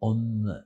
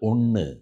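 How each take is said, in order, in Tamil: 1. n ஒலி நாக்கு பற்களில் படுவதால் எழுப்பப்படுகிறது. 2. n ஒலி நாக்கு மேலே மடிந்து எழுப்பப்படுகிறது. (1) "அவ சொல்றது ஒன்னு. நாக்கு வரணும் அங்க" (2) "நம்ம சொல்றது வந்து ஒண்ணு"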